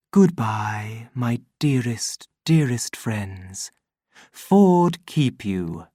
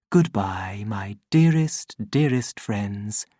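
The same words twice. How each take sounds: First: Gentle voiced farewell; loving goodbye. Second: Tender whispered farewell; whispered goodbye. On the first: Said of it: "loving goodbyes from the voice". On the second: Acted. Voice fading, repeating farewell.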